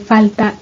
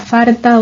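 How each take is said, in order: First: An l sound comes before the t. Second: An r sound comes before the t. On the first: This is the standard form. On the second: This is the regional dialect form.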